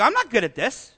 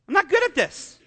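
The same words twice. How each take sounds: First: Said in the usual way. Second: Higher, stressed on good; emphatic admission. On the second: Real, not acted. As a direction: say it again, owning it. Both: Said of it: "repeated for emphasis".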